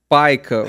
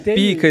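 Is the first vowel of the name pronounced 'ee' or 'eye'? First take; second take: eye; ee. First: The first vowel sounds like 'eye'. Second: The first vowel sounds like 'ee'. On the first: The speaker calls it right. "ele paica" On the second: The speaker calls it wrong. "Ou pica"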